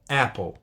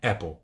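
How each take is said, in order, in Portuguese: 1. A primeira vogal é bem aberta e com som de garganta. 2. A primeira vogal é mais fechada, como em português. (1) "Tem uma abertura de boca bem maior do que a gente fala em português" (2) "Então não é Apple"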